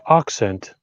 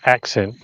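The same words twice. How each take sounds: First: It is said with a British vowel. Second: It is said with a sharper vowel. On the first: "British might go accent" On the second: "I might say accent. So then it's more sharper"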